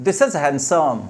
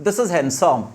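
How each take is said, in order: Both takes have the same delivery.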